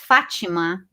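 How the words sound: The name is said with a Brazilian pronunciation. "in Brazil, you pronounce my name is Fatima"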